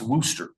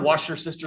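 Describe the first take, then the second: First: It is said the standard, shorter way. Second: It is said like 'washer sister', with extra syllables. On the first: The speaker calls it right. "this here is actually pronounced Worcester" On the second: The speaker calls it wrong. "by the time I heard Washer sister sauce, I just gave up on trying to say it right"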